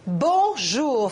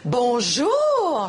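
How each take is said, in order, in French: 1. Le bonjour sonne sévère et sérieux. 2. Le bonjour sonne surpris. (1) "faut qu'on se parle" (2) "je suis surprise de te voir"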